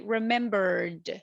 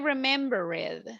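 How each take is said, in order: First: The word ends with a voiced d sound. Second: The word ends with a voiceless t sound. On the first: The speaker calls it right. "We say remembered" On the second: The speaker calls it wrong. "We don't say remembered"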